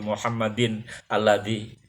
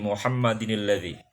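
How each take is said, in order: First: The words are said apart without a linking sound. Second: The words run together with a linking i sound. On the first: "sholawat tanpa pakai tajwid juga tetap diterima" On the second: "berubah membacanya menjadi Muhammadinilladzi"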